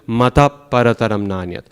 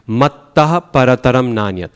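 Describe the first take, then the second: First: The t in the first word is short. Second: The t in the first word is held long. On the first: The speaker calls it wrong. "Mata would be wrong because that's one T" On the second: The speaker calls it right. "So, it's a double T"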